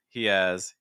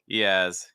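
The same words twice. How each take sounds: First: The vowel in has is a full ah. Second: The vowel in has is a full ah.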